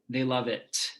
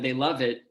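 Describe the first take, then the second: First: The final T is released with a clear burst. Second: The final T is cut off without release.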